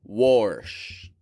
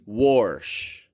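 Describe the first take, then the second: Both takes have the same delivery.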